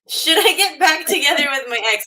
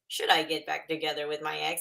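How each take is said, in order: First: It is said in a natural speaking voice. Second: It is said in an imitation robot voice.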